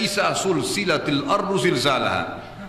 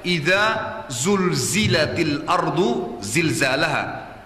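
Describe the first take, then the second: First: The opening consonants are voiceless, hissing s sounds. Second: The opening consonants are voiced, buzzing sounds. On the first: When the earth is joined together. The speaker calls it wrong. "izanya sudah salah diganti dengan sin" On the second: When the earth is shaken violently. The speaker calls it right. "Pertama pakai zal dulu... Yang kedua zai, bergetar lidahnya"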